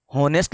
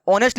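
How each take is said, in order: First: होनेस्ट with a clear spoken H, "hon-est"; wrong pronunciation. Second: ऑनेस्ट said "on-est", starting on the vowel O; silent h. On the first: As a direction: sound the H at the start of होनेस्ट. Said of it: "होनेस्ट लिखा हुआ नहीं है ये". (होनेस्ट में H साफ़ बोलकर) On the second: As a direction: drop the H in ऑनेस्ट, begin on O. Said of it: "एच silent रहता है". (ऑनेस्ट बिना H के, ओ से शुरू) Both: Shown as a demonstration.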